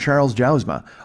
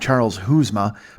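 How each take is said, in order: First: The surname begins with a J sound. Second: The surname begins with an H sound.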